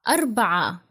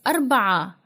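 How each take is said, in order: Both takes have the same delivery.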